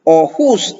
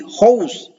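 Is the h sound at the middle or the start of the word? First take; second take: middle; start. First: The h sound comes in the middle. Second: The h sound comes at the start. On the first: The speaker calls it wrong. "bukan ohus" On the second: The speaker calls it right. "aspernya dibaca di awal"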